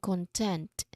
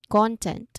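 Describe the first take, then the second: First: The stress is on the second syllable. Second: The stress is on the first syllable. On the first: It means satisfied. "So that's the second version. We stress on the sec- second syllable" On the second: It means material or information. "Stress on the first syllable"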